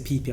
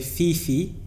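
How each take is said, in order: First: Each syllable begins with a P sound. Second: Each syllable begins with an F sound. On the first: The speaker calls it right. "some people say P P. Apparently, it's P P" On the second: The speaker calls it wrong. "some people say Fifi"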